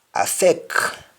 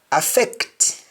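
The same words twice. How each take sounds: First: Affect ending on K, as "affeck"; Jamaican pronunciation. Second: Said in the usual way. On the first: Shown as a demonstration. Teacher showing Jamaican speech, affect said as "affeck". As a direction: drop the T of affect. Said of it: "change that C T to either C K". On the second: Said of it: "English words that end with C T".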